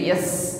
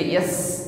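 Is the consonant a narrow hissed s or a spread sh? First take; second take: hissed s; hissed s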